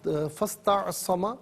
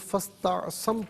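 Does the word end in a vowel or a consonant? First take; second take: vowel; consonant. First: The word ends with a short final vowel. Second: The word ends on a consonant, vowel dropped. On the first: The reading continues without stopping. "और फ़स्तअसम" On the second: The reader stops at this word. "वफ़ की सूरत में फ़स्तअसम पढ़ेंगे"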